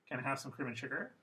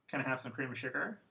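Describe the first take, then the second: Both takes have the same delivery.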